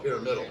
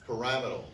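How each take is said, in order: First: Said in the usual way. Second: "pyramidal" as puh-RAM-ih-dul, stress on the second syllable; fancy pronunciation. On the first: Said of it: "Instead of pyramidal". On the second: Shown as a demonstration. Teacher showing students how to sound educated, "pyramidal" as puh-RAM-ih-dul. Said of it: "sound really fancy".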